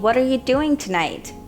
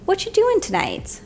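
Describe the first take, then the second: First: Every word, including are, is pronounced. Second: The word are is dropped entirely. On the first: "instead of asking" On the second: "Native speakers will say"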